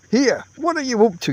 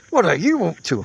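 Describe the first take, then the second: First: Higher, irritated call across the tent. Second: Snapped-back echo, less raised; retort. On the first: Camper calls out at his tentmate, irritated. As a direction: shout across at a bungling partner. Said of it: "you call out". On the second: Tentmate retorts to the other camper, snappish. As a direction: throw the question straight back. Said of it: "he retorts". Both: A narrator's reading.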